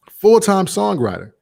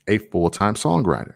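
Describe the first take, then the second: First: Full-time songwriter said much higher and louder, emphatic; stressed repeat. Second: Said in the usual way. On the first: Real, not acted.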